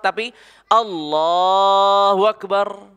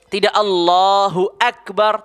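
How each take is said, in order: First: Akbar begins with a w sound. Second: Akbar begins with a glottal stop. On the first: The speaker calls it wrong. "Hamzahnya diganti waw" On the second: The speaker calls it right.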